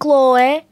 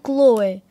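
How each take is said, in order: First: The name has a local Portuguese village pronunciation. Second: The name has an English, foreign-sounding pronunciation. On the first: This is how older village people say the name. "eles dizem Chloe" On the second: This is how the name is said in its original language. "Eles não dizem Chloe"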